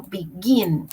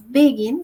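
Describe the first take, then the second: First: Slow be-GIN with the weight on gin; the correct be-GIN stress, drawn out; correct stress on the last syllable. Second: The mistaken BE-gin stress; wrong stress. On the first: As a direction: begin stressed at the end, be-GIN, said slowly. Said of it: "sino begin". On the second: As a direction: begin stressed on the first syllable, BE-gin. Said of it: "Yo no digo begin". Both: Shown as a demonstration.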